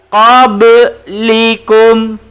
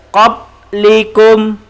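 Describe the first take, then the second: First: The b is released with a bouncing echo. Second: The b stops flat with no echo. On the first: The speaker calls it right. "Bacaan yang betul" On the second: The speaker calls it wrong. "kalau tidak lantun, kita baca qablikum"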